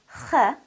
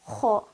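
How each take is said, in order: First: It is said light, with lips stretched sideways. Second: It is said heavy, with a full mouth. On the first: The speaker calls it wrong. "stretching my mouth with um, horizontally and giving it a soft, light quality" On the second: The speaker calls it right. "pronounced with a full mouth"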